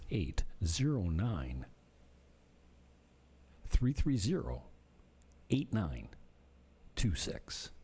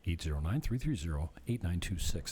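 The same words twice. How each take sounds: First: The number is said at a slower pace. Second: The number is said at a quicker pace.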